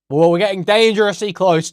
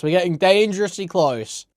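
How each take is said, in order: First: Loud amused warning. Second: Said in the usual way. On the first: Real, not acted. Reacting to the list.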